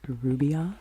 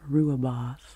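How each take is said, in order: First: It is pronounced like 'rubios', sounds swapped. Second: It is pronounced like 'rooibos'. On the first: The speaker calls it wrong. "I used to say rubios, ... I was transposing um, a couple of the letters" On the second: The speaker calls it right. "I think I am pronouncing this type of tea correctly"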